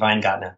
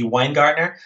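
First: The name is said the German way. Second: The name is said the English way.

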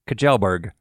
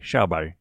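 First: The name is read as its English spelling suggests. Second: The name is said copying a Swedish speaker. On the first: The speaker calls it wrong. "It looks to me like it should be said Kjellberg. But I know that's not correct" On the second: The speaker calls it right. "we listened to a Swedish person online say his name, and it sounded like Schauberg"

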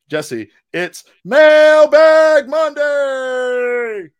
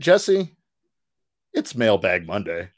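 First: It is said with more energy and excitement. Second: It is said flatly, with little energy.

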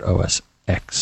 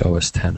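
First: The X is pronounced as the letter ex. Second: The X is pronounced as the word ten. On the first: The speaker calls it wrong. "and not OS X" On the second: The speaker calls it right. "you want to say OS 10"

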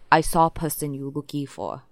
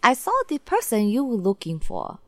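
First: It is said in a deep voice. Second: It is said in a normal voice.

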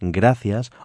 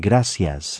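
First: The c is said with a th sound. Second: The c is said with an s sound.

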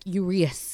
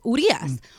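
First: The name is said with English-style pronunciation. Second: The name is said with Spanish-style pronunciation. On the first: The speaker calls it wrong. "not like Urias" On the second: The speaker calls it right. "it's Urias"

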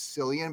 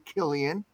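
First: The name begins with an S sound. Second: The name begins with a K sound. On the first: The speaker calls it wrong. "a lot of people say it's Cillian" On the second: The speaker calls it right. "but it's actually Killian"

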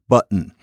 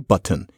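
First: The middle t is a catch in the throat. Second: The middle t is a full t sound. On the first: The speaker calls it right. "You change the T to an uh" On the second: The speaker calls it wrong. "you don't say button"

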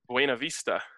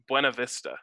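First: It uses the original, non-local pronunciation. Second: It uses the local Colorado pronunciation. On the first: The speaker calls it right. "how should it be said?" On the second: The speaker calls it wrong. "that pronunciation is so bad compared to the way it really should be said, but it's the way it's said in Colorado"

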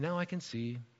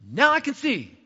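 First: It is said plainly, without excited emphasis. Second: It is said with lively, exclaiming excitement. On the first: Being able to see sounds like no big deal. The speaker calls it wrong. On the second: The speaker is thrilled to be able to see. The speaker calls it right. "I say it like that because there's an exclamation point behind it"

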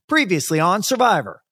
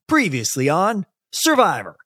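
First: There is little pause before Survivor. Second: There is a pause before Survivor.

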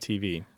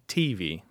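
First: The stress is on the second syllable. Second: The stress is on the first syllable. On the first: It is the usual mainstream form. "Instead of TV" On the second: It reflects a regional dialect feature. "I have one aspect of the PU dialect. I say TV"

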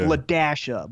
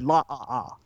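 First: The middle is said as the sound 'dash'. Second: The middle is said as a plain vowel 'ah'. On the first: The speaker calls it right. "they were pronounced the dash" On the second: The speaker calls it wrong. "but I said La-ah-ah"

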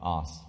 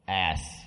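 First: The word is said in a British accent. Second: The word is said in an American accent.

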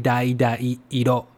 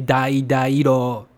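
First: The two i sounds are pronounced separately. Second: The two i sounds merge into one. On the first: The speaker calls it right. "you need to pronounce them twice" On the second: The speaker calls it wrong. "it's not like you can just say dai dai iro or something. That's not right"

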